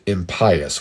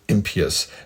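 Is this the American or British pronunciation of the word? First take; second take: British; American. First: It is pronounced the British way, echoing pious. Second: It is pronounced the American way. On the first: "the Brits pronounce it impious, which kind of makes more sense because it sounds like pious" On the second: "That is the way Americans pronounce it"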